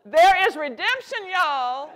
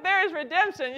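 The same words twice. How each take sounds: First: Much louder and higher, like preaching good news; an emphatic, real call, louder and higher; excited rallying cry. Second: "there is redemption" restated high and loud, landing with a fall; an emphatic, warm, raised declaration; excited affirmation. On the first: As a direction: lift the room with hope. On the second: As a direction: close the rallying cry firmly. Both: Real, not acted. Rallying non-cooks.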